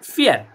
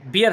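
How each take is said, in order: First: The word begins with an f sound. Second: The word begins with a b sound. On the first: The speaker calls it right. "ফ এর মতো উচ্চারণ হবে" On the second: The speaker calls it wrong. "অনেকে বলতে পারেন এটা বিয়ার বিয়ার হবে কিন্তু না"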